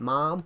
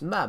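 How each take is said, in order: First: The vowel is an open 'ah' sound. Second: The vowel is a short 'uh' sound. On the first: The speaker calls it wrong. "America's like mom" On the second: The speaker calls it right. "It's mum, not mom"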